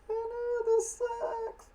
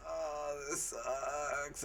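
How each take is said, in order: First: Very high squeaky mock scream. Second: Soft, deadpan groan of a line; bored complaint. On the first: Soldiers screaming in the background, squeaky and high. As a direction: shriek it in a tiny high voice. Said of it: "their screams in the background like". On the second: Retold or imitated. Mia Jovovich lying on the ground, softly and flatly complaining. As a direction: mumble it like she can't be bothered. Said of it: "Mia Jovovich laying on the ground like".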